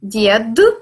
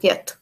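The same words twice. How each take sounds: First: The final consonant is voiced, like d. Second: The final consonant is voiceless, like t.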